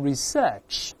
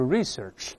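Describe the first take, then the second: First: The stress is on the second syllable. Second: The stress is on the first syllable. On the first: "英式发音读成research" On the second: "美音中一般重音在前面，都是research"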